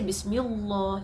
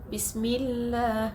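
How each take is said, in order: First: The L sound is heavy and thick. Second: The L sound is light and thin. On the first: The speaker calls it wrong. "You don't say it like that" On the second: The speaker calls it right. "Light is like you say bismi"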